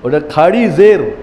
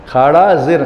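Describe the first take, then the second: First: খাড়ি said with Urdu feminine ending; Urdu khari zer. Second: খাড়া with masculine -a ending; wrong form khara zer. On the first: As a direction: say খাড়ি জের, not খাড়া. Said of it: "Urdu বলে খাড়ি". (উর্দু উচ্চারণে খাড়ি জের) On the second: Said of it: "উর্দুতে খাড়া জের হয় না". (ভুল রূপ খাড়া জের) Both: Shown as a demonstration.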